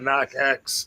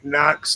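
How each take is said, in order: First: The name is said as two separate parts. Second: The name is said as one syllable.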